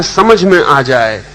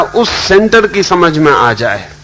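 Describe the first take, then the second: First: समझ stressed, said slowly and weighed; slow quoted stress. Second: सेंटर pressed hardest, whole phrase slowed; stress on center. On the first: Quoting Lao Tzu to listeners, slow stress on समझ. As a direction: lay weight on समझ, drawing the words out. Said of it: "तो लाओ से जब कहता है". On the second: Explaining the inner center to listeners, slow stress on सेंटर. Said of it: "तो वो कह रहा". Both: Shown as a demonstration.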